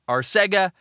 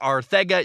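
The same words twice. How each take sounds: First: The middle consonant is a plain s sound. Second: The middle consonant is a th sound. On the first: "I had a friend who had the last name" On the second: "I'm told there's a T H sound"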